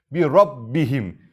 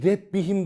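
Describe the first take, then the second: First: "Rabbihim" with a thick, heavy r and open a. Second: "Rebbihim" with a thin light r and e vowel; thin ra, wrong. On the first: Teacher showing students the thick "Rabbihim", slow and heavy. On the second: Teacher contrasting the wrong thin "Rebbihim" for students. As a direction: say "Rebbihim" thin, as the mistake to avoid. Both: Shown as a demonstration. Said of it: "Bir Rebbihim demiyorum".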